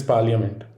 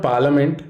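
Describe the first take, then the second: First: "parliament" as PAR-lee-uh-ment; "parliament" with a y glide after the l; right parliament. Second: "parliament" as PAR-luh-ment; "parliament" without the y sound; wrong parliament. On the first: Teacher showing students the right way, "parliament" with the y glide. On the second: Teacher showing students the wrong way, "parliament" without the y. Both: Shown as a demonstration. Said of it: "there should be a Y after I".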